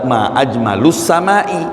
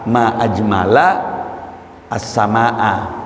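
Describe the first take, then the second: First: Ajmal ends in u, and sama ends in i. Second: Ajmal ends in a, and sama ends in a. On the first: It asks what is most beautiful in the sky. "Kalau bentuk pertanyaan" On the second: It exclaims how beautiful the sky is. "kalau maksud ta'ajub, alangkah indahnya langit, pakai fathah"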